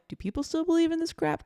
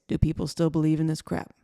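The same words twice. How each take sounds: First: The voice rises at the end like a question. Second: The voice falls at the end like a statement.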